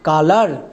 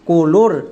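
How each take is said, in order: First: The first syllable is said like 'ka'. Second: The first syllable is said like 'ko'. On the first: The speaker calls it right. "সি ও কা, এল ও এর জন্য করে দেব লা" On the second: The speaker calls it wrong. "কোলোর বলে কোনো ইংরেজি word হয় না"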